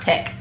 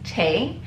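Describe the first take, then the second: First: The name ends with a k sound. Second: The name ends with an open vowel. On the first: The speaker calls it wrong. "I know it's not Tech" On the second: The speaker calls it right. "I believe it's Tay"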